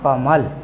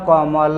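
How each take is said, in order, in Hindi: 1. शब्द बिना स्वर वाले ल की ध्वनि पर खत्म होता है। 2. अंतिम ल के बाद एक पूरा स्वर आता है। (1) "इसको बोला जाता है कमल" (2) "अगर हम सही ढंग से बोलें तो ये हुआ कमल"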